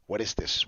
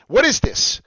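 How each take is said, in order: First: Said in the usual way. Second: High, loud burst of astonishment; exclaimed question. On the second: Real, not acted. Host shows viewers his find, exclaimed question. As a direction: call it out, pitched way up.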